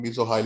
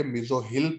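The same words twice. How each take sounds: First: Mesohyl said with a long "eye" sound, meso-HILE; wrong pronunciation. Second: Mesohyl with a short "i" in the last syllable, mee-zo-hil; correct pronunciation. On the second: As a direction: mesohyl ending in "hil", not "hile". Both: Shown as a demonstration. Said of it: "आई sound देंगे, वाई की जगह पे".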